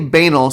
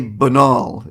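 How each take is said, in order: First: The word is said the plain, everyday way. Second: The word is said the fancier-sounding way. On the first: The speaker calls it wrong. "don't don't say banal" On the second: The speaker calls it right. "say banal. It'll make it sound so much more fancy"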